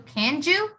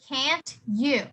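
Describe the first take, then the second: First: The words are run together in casual reduction. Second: The words are said carefully and fully.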